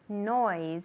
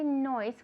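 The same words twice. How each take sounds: First: The final sound is a buzzing, fly-like s. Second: The final sound is a plain hissing s. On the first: The speaker calls it right. "we say noise. It's a fly S" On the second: The speaker calls it wrong. "we don't say noise"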